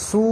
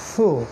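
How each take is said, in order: First: The syllable begins with a hissing s sound. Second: The syllable begins with a soft th sound. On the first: The speaker calls it wrong. "এটাকে সু বা সু এরকম উচ্চারণ করা যাবে না" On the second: The speaker calls it right. "এই এই সামন থেকে"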